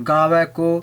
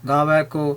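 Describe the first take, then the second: The two takes are said the same way.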